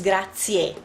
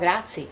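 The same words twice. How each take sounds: First: The final vowel sound is clearly pronounced. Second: The final vowel sound is dropped. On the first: The speaker calls it right. "because you read everything the last two" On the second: The speaker calls it wrong. "Americans tend to say grazie"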